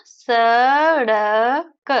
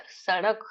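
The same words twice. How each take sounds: First: सड़क drawn out loudly as "saa, daa, ka"; sound by sound. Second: Said in the usual way. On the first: Shown as a demonstration. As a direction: stretch each sound of सड़क separately. Teacher breaks word into sounds.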